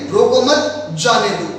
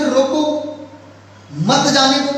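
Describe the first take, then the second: First: रोको मत said together, then a break before जाने दो; pause after मत. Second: रोको, then a clear pause before मत जाने दो; pause after रोको. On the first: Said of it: "ये कॉमा मैं यहां से हटा करके". (रोको मत एक साथ, ठहराव, फिर जाने दो) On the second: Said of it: "दो तरीके से प्रेजेंट". (रोको के बाद ठहराव, फिर मत जाने दो एक साथ) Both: Shown as a demonstration.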